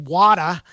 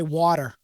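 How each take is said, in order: First: It is said in a Boston accent. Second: It is said carefully overpronounced, hiding the accent. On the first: "in Boston, we say water, just like the Aussies" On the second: "I now overpronounce. I try to disguise my accent"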